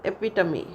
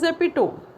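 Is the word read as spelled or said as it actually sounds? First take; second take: as it sounds; as spelled. First: The word is said with its actual pronunciation. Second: The word is read out the way it looks. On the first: The speaker calls it right. "but sound is epitome" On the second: The speaker calls it wrong. "Spelling is epitome"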